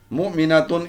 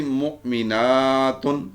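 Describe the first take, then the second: First: مؤمناتن said briskly as "mu'minatun", short "na"; higher-pitched مؤمناتن with no lengthened vowel; singular word form. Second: مؤمناتن with a drawn-out "naa" before "tun"; teacher's مؤمناتن, long held aa; long plural ending. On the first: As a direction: keep the "a" before "tun" short in مؤمناتن. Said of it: "ایک مومن عورت". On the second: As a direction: stretch it as "mu'minaaatun" in مؤمناتن. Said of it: "اور زیادہ مومن عورتیں". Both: Shown as a demonstration.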